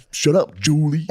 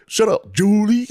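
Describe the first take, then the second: First: Mock snap. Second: High, slow, loud mock yell; yelling Shut up, Julie much higher and slower; laughing yell. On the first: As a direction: snap it back at her. Repeated retort to lunch lady. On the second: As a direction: stretch it out, cracking up. Repeated retort, laughing harder.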